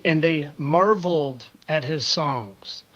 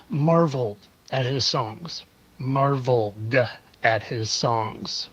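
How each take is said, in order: First: Marveled leaned on, rest said lightly; stress on marveled. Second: Marveled said alone, then at his songs slowly; marveled drawn out, then paused. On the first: Vlogger repeating the clip line, marveled stressed. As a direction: hit the word marveled first. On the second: Vlogger mocking the clip line, drawn-out Marveled. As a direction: pause after Marveled, slow the rest. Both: Shown as a demonstration.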